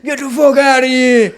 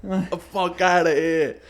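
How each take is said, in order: First: Put-on loud, slow New York accent shout. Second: Put-on louder New York accent yell; dwarf yelling New York style. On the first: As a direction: yell it like an angry New Yorker. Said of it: "New York or Boston accent". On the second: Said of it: "This fucking little dwarf".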